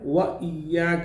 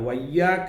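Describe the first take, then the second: First: A glottal stop separates wa from iyyaka. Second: Wa runs straight into iyyaka without a stop. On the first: The speaker calls it right. "വ ഇയ്യാക്ക എന്നാണ്" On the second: The speaker calls it wrong. "വയ്യാക്ക എന്ന് പറഞ്ഞ ഒരു ഹംസ അവിടെ നഷ്ടപ്പെട്ടു"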